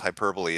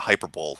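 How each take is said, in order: First: The word ends with an extra syllable after 'bo'. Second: The word ends like 'bowl', as in sports.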